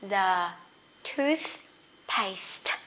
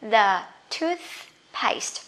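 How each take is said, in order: First: "The" low, then "toothpaste" soft and falling; the TH drill. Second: "The toothpaste" said slowly, with the TH sound stretched out; the TH drill. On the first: Teacher repeating the TH word for students, slow and split. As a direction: split "The" and "toothpaste" apart for clarity. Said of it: "Rõ chưa?". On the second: Teacher drilling the TH sound for students, slow and careful. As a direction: draw out "The" before "toothpaste". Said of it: "Mấy âm T H lận hơi khó nhỉ?". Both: Shown as a demonstration.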